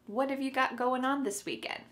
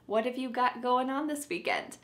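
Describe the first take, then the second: First: The first words blend together and the final g drops. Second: The first words blend together and the final g drops.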